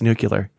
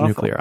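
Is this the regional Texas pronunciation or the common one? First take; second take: Texas; common. First: It uses the regional Texas pronunciation. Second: It uses the common non-Texas pronunciation. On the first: This is how people from Texas say it. "If you're from Texas, it's nuclear" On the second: This is how the rest of the world says it. "Rest of the world, it's nuclear"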